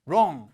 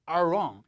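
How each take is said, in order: First: It starts without a strong growled R sound. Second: It starts with a strong growled R sound. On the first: The speaker calls it wrong. "이게 안 나고 wrong 이러면은 좀 이상한 겁니다" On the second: The speaker calls it right. "이렇게 처음에 R 소리가 나야 돼요"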